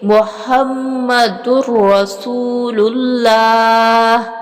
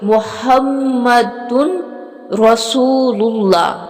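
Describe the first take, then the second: First: The n sound merges into a doubled r. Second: The n sound is clearly pronounced before r. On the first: The speaker calls it right. "इसको सही अदा किस तरह से करेंगे" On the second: The speaker calls it wrong. "ये इस तरह लफ्ज़ है"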